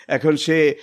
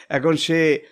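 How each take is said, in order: The two takes are said the same way.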